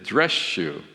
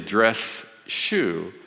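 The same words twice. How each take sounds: First: The word dress ends with a sh sound. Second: The word dress ends with a clear s sound. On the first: "The S turns into a sh" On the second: "it's very hard to say dress shoe"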